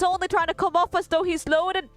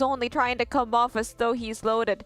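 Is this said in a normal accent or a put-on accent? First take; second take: put-on accent; normal accent. First: It is said in a put-on accent. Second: It is read in the speaker's ordinary accent.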